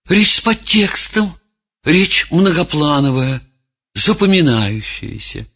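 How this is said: The voice sounds unsure and hesitant. The speaker is lost and unsure of themselves. "другого человека, растерянного"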